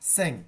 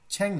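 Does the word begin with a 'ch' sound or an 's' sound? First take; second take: s; ch. First: The word begins with an 's' sound. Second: The word begins with a 'ch' sound. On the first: The speaker calls it right. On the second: The speaker calls it wrong. "ছ্যাং না"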